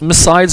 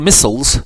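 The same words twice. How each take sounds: First: The word is said with a British pronunciation. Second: The word is said with an American pronunciation. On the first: "depending on the pronunciation, British or American" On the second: "depending on the pronunciation, British or American"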